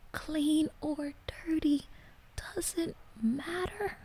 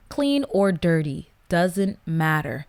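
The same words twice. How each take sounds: First: Hushed, slow, much softer disbelieving whisper. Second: Said in the usual way. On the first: Shown as a demonstration. Rereading the letter's line to viewers, slow shocked whisper. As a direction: breathe the words out in shocked disbelief.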